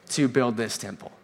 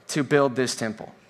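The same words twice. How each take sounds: The two takes are said the same way.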